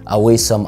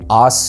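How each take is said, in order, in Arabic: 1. تُنطق aw-ee-sum بثلاثة مقاطع. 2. تُنطق aw-sum بمقطعين. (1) "مش اويسم" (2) "الكلمة دي بتتقال awesome"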